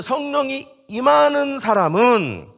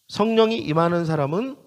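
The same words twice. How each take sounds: First: Loud, slow, high preaching; emphatic proclamation. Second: Said in the usual way. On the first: Real, not acted. Preacher asking whom the Spirit comes upon, emphatic proclamation. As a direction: proclaim it with drawn-out force.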